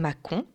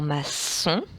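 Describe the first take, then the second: First: The middle consonant is a K sound. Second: The middle consonant is an S sound. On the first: "Si je n'avais pas la cédille, ça ferait macon" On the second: "je voudrais que ça fasse S"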